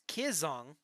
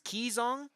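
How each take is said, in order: First: The first vowel is short, as in "kid". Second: The first vowel is long, as in "key". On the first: "it's the same I that you would say in kid" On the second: "spell it like K E E E or K E E dash Zong"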